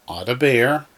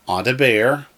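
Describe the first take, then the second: The two takes are said the same way.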